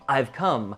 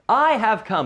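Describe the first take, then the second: First: The word have is contracted to ve. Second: The word have is said in full. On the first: "we use the contraction" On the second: "I have come, but we use the contraction"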